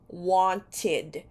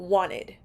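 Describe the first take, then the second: First: It is said with a non-American accent. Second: It is said with an American accent. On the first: "the pronunciation of this word is wanted" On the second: "in America, they say wanted as well"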